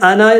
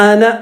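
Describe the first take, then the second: No difference in how they are said.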